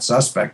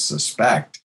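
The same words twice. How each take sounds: First: The stress is on the first syllable. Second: The stress is on the second syllable. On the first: It is the noun, a person suspected. "it's not suspect" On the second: It is the verb, to suspect. "it's suspect"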